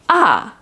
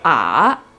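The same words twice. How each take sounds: First: The pitch falls sharply. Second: The pitch dips down, then rises. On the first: "marked as a backslash, top to down" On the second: "I go down and then I go up"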